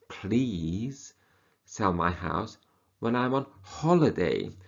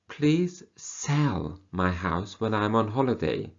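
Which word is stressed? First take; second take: please; sell. First: The word please carries the strongest stress. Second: The word sell carries the strongest stress. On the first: The speaker is begging the listener. "Here we are begging the person" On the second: The speaker wants it sold, not bought. "So they don't want you to buy the house"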